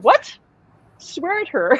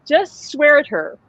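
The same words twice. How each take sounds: First: High incredulous echo; retold disbelief. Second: Slow, higher-pitched instruction; retold urging. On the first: Medium reacting to Alan's advice, mock disbelief. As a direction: throw the advice back as a startled question. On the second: Alan telling the medium what to do, slow urging. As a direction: draw it out as a retold piece of advice.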